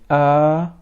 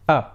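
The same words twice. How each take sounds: First: The vowel is drawn out long. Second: The vowel is short, one beat. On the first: The speaker calls it wrong. "if it is prolonged, it will be turned into alif. So we never say a" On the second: The speaker calls it right. "but we shall say a"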